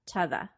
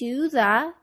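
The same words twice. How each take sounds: First: Both words are said weak and short. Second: Both words are said fully and clearly.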